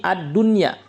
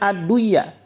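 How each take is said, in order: First: The n sound is pronounced clearly before the y. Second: The n sound is merged into the following y. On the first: The speaker calls it right. "dibaca dengan izhar" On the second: The speaker calls it wrong.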